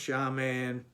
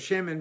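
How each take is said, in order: First: The first vowel sounds like 'ah'. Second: The first vowel sounds like 'eh'. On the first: This is the form used at the end of a verse. "So it's a kamatz gadol" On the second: This is the ordinary form of the word. "which is really two segos"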